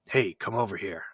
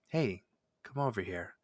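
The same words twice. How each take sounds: First: The voice is low, rough and gruff. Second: The voice is high, kind and slow. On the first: "gruff, or you know, that lower register" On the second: "a higher pitched, kind, slow"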